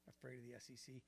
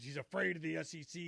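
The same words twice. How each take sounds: First: Much softer, scornful echo of "Afraid of the S E C"; scoffing repeat. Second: Said in the usual way. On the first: Real, not acted. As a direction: mutter it back in disbelief. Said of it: "It's ridiculous". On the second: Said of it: "People say".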